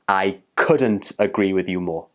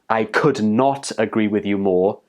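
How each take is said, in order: First: Could and not are shortened into couldn't. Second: Could and not are said as two full words. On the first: The speaker calls it right. "Instead, say" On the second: The speaker calls it wrong. "never say"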